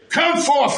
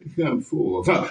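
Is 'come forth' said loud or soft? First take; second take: loud; soft. First: It is said loudly and with force. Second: It is said softly, slowly and timidly. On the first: The speaker commands with authority. The speaker calls it right. "with a loud voice" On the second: The speaker sounds fearful and unsure. The speaker calls it wrong. "He didn't say it so fearful and slowful and lowly"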